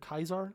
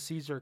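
First: The word begins with a hard k sound. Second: The word begins with a soft s sound. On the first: This is how it was said in ancient Latin. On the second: This is the usual modern pronunciation.

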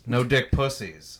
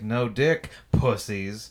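First: It runs together without a pause. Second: There is a pause before 'pussies'.

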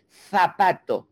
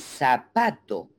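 First: The z is pronounced like English th. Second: The z is pronounced like s.

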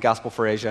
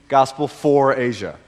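First: The phrase is said very quickly. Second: The phrase is said slowly and clearly. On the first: The speaker calls it wrong. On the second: The speaker calls it right.

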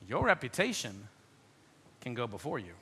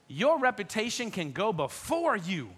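First: It is said in a dark, ominous tone. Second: It is said in a bright, cheerful tone. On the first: A bad reputation precedes you. "Hear the difference" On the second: A good reputation precedes you.

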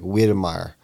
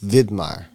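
First: The name begins with a W sound. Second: The name begins with a V sound. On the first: The speaker calls it wrong. "his last name starts with a W, so it's like" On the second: The speaker calls it right. "But it's Widmeier because the Germans and the Austrians"

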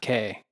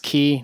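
First: The word is said like 'kay'. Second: The word is said like 'key'. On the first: The speaker calls it wrong. "not K" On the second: The speaker calls it right. "that is the correct pronunciation. It's Cay"

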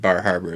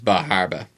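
First: It is said in a general, non-Maine accent. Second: It is said in a local Maine accent. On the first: The speaker calls it wrong. "Maine won't pronounce it Bar Harbor" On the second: The speaker calls it right. "It's Bar Harbor"

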